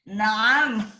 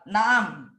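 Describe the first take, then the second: First: The word is said in an overdone, dramatic way. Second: The word is said in a plain, neutral way.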